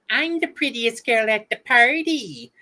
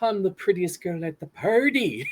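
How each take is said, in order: First: It is said in a high, girlish cartoon voice. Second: It is said in a soft, slow bear voice. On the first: "the voice that Tara Strong does for uh, Bub- Bubbles" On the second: "as Winnie the Pooh"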